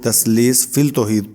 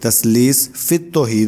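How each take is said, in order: First: An 'l' sound is heard before 'tauheed'. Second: The 'l' merges into the 't' sound. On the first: The speaker calls it wrong. "लोग ... पढ़ते हैं" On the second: The speaker calls it right. "जैसे तस्लीस फित तौहीद है"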